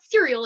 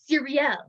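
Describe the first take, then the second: First: The name sounds like the word cereal. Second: The name does not sound like cereal. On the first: The speaker calls it wrong. "it's not cereal" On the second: The speaker calls it right. "it's Cyriel"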